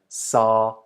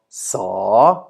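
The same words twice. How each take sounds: First: The syllable is said on a level middle tone. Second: The syllable is said on a rising tone. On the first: "the neutral or middle tone" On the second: "why the second one is rising"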